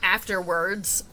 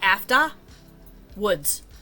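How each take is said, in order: First: The R in the middle is clearly pronounced. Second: The R in the middle is dropped. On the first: "I have to like really enunciate that R in there" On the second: "I say it like after woods"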